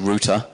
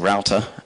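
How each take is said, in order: First: The word is said with a British pronunciation. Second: The word is said with an American pronunciation. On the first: "I'm British. Um, I usually say router" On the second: "Americans and Australians say router"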